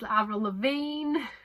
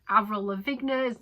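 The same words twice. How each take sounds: First: The name is not said as it is spelled. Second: The name is said just as it is spelled. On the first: The speaker calls it right. "it turns out it's [name]" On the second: The speaker calls it wrong. "it's been like that my whole life"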